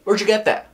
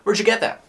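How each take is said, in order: Both takes have the same delivery.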